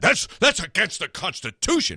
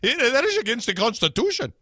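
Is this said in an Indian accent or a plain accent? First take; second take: plain; Indian. First: It is said in the speaker's ordinary accent. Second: It is said in a put-on Indian accent. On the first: "They probably didn't say it that way" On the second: "Probably said it like that. Anyway, no, that's Indian"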